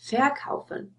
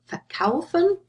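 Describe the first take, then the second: First: The stress is on the first syllable. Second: The stress is on the second syllable. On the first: The prefix would be separable. The speaker calls it wrong. "you don't say verkaufen or besuchen" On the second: The prefix is inseparable. The speaker calls it right. "So you see the stress is on the stem here"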